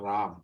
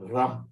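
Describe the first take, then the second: First: The vowel is said long and extended. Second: The vowel is said short. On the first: The speaker calls it wrong. "not Ram" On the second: The speaker calls it right. "the A is very short"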